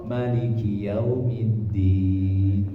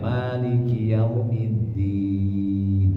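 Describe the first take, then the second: First: The first vowel 'ma' is kept short. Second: The first vowel 'ma' is held long. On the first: The king of the Day of Judgment. "raja di hari pembalasan" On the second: The owner who possesses the Day of Judgment. "ma panjang"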